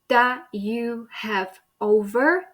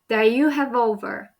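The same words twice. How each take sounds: First: Each word is said separately and clearly. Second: The words run together into one unit. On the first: "instead of saying" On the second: "he joined these words together"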